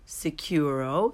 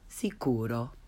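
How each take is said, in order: First: The u is said like English 'you'. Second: The u is a pure 'oo' sound. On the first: The speaker calls it wrong. "the mispronounced way first" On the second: The speaker calls it right. "and then the correct way"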